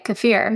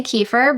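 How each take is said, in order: First: Kefir as kuh-FEER; fancier pronunciation. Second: Kefir as KEE-fer; own pronunciation. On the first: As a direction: stress the second syllable of kefir, kuh-FEER. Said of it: "It sounds fancier". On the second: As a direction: hit the first syllable of kefir, KEE-fer. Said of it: "I say kefir". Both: Shown as a demonstration.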